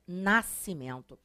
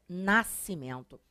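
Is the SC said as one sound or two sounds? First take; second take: one sound; one sound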